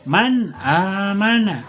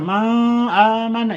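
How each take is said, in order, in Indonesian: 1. Nun diucapkan dengan jelas dan tegas. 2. Nun disamarkan menjadi bunyi sengau. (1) "maka dibaca man amana" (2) "Jangan dibaca ikhfa, samar, man amana, itu jelas salah"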